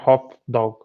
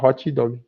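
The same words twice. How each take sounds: First: The final T and D are silent, unreleased. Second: A vowel is added after the T and D. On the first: "a gente não fala hot dog" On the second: "a gente fala hot dog"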